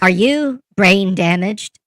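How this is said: It is said in Karen's put-on character voice.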